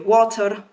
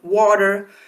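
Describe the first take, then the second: First: It is said in a Scottish accent. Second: It is said in an American accent. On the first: "For a Scot, it will be water" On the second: "So for an American, it will denote water"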